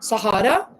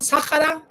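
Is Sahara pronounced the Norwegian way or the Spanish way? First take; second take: Norwegian; Spanish. First: The word is pronounced the Norwegian way. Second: The word is pronounced the Spanish way. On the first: "the Norwegian one" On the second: "the Spanish one"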